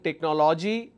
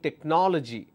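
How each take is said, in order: First: All syllables are said with even stress. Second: One syllable is clearly stressed over the others. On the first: "instead of saying technology" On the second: "I'm stressing on one particular syllable"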